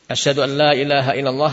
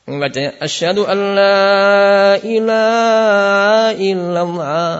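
First: Fast asyhadu an la ilaha with a weak ha; unclear ha. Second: Slow, high asyhadu an la ilaha with a strained throaty ha; exaggerated ha in ilaha; overdone ha. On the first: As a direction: rush it so the ha is lost. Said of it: "hanya tidak jelas". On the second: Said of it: "membaca berlebihan". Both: Shown as a demonstration.

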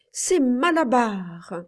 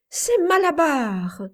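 First: Slow and emphatic; powerful yell. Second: High, loud triumphant yell; strangely powerful yell. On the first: Boy on his rocking horse, yelling it out slowly. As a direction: drive the name home one more time. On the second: Boy on his rocking horse, yelling the winner's name. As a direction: shout the horse's name as if possessed. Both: A narrator's reading. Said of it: "hurla-t-il d'une voix étrangement puissante".

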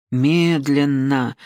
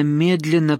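First: МЕДЛЕННО stretched right out; one word, said at a crawl; drawn-out slow. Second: Said in the usual way. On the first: A narrator's reading. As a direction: draw the word out slowly. Word repeated, drawn out for effect.

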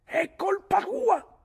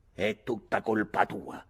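First: Very high, loud, drawn-out yell; insistent accusation. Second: Slow, gloomy accusation; sullen blame. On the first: Mick repeats the blame over Ulick's warning, shrieking. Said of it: "ripete Mick". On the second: Mick blames his father for the brawl, sullen. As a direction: grumble the blame slowly and darkly. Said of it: "disse Mick con aria cupa". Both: A narrator's reading.

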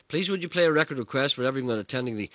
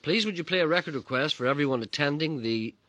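Both takes have the same delivery.

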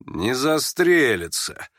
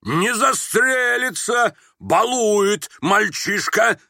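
First: Slow, drawn-out malicious remark; gloating mutter. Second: High, very slow, pompous bellow; indignant, self-assured shout. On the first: Onlookers doubting the suicide threat, muttering with malice. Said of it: "злорадством пробормотало несколько голосов". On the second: General dismissing the boy's threat, shouting indignantly. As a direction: proclaim each word with outraged aplomb. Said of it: "с негодованием и с опломбом неожиданно прокричал". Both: A narrator's reading.

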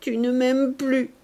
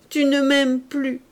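First: Tearful despair. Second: Rising tearful plea. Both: A narrator's reading. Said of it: "ses yeux s'emplirent de larmes".

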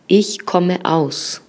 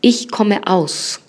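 First: Ich komme aus again very slowly, stress on Ich; teacher repeating Ich komme aus. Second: Ich komme aus very slowly, stress on Ich; teacher modelling Ich komme aus; slow model phrase. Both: Shown as a demonstration. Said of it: "vamos a decir yo vengo de".

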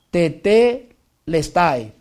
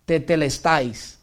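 First: Tetelestai drawn out very slowly and a bit louder; emphatic tetelestai. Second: Tetelestais spoken slowly, syllable by syllable; Greek word tetelestai. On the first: Preacher repeats the key Greek word for emphasis, drawn out. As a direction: land the Greek word with weight. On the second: Preacher introduces the Greek word, slowly. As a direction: read out the Greek term carefully. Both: Shown as a demonstration. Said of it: "Lo repito".

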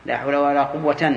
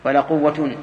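First: Slow, قوة said as "quwwatan"; slow down and finish قوة on a clear -tan; accusative ending. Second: قوة said as "quwwatun", -un clearly sounded; nominative ending. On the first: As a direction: voice the tanween fatha on قوة. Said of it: "هذه اثنين". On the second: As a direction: finish قوة on a firm -tun. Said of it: "هذه واحد". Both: Shown as a demonstration.

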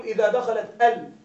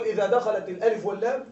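First: ال in إذا دخلت ال said as the single syllable al; al as one word. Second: In إذا دخلت الألف واللام the ال is named letter by letter, alif and lam; al spelled as letters. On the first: Teacher showing students ال read as one word al. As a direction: say ال as one short word al, not letter names. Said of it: "ننطقها على أنها كلمة واحدة". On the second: Teacher showing students ال spoken as separate letters. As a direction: read ال out as the two letter names الألف واللام. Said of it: "ننطق ال على أنها حروف". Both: Shown as a demonstration.

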